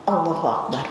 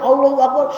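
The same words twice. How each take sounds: First: It is said calmly and quietly. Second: It is said with exaggerated, painful straining.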